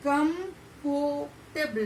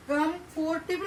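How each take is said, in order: First: कंफर्टेबल as कम्फ्टेबल, no r after फो; right way, r dropped. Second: कंफर्टेबल with the r in फोर sounded; कंफर्टेबल as कम्फोर्टेबल, r pronounced; wrong way, r sounded. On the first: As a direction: say कंफर्टेबल the correct way, r silent. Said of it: "कंफर्टेबल ऐसे ही pronounce किया जाता है". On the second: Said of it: "कंफर्टेबल नहीं बोल रहे". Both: Shown as a demonstration.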